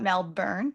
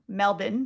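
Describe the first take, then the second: First: It is said the way non-Australians say it. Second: It is said the way Australians say it. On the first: The speaker calls it wrong. "not Melbourne" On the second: The speaker calls it right. "one of my best friends is from Melbourne"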